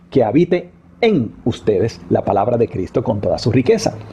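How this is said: The stress is on "en".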